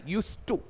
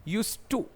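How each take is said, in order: Both takes have the same delivery.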